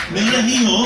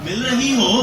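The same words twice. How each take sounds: The two takes are said the same way.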